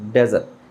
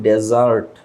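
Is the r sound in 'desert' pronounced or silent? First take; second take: silent; pronounced. First: The r sound at the end is silent. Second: The r sound at the end is pronounced. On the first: The speaker calls it right. "এইখানে আর এর উচ্চারণটা হবে না" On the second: The speaker calls it wrong. "আমরা এটাকে বলি ডেজার্ট"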